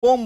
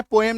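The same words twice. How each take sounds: First: पोम as a single syllable; correct pronunciation. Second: पोएम in two syllables, o then e; wrong pronunciation. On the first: Teacher confirming what students will say, one-syllable पोम. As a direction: drop the e, just long o and m in पोम. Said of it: "क्या बोलेंगे?". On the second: Teacher checking what students will not say, two-syllable पोएम. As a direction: sound a separate e in पोएम. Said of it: "पोएम नहीं बोलेंगे". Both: Shown as a demonstration.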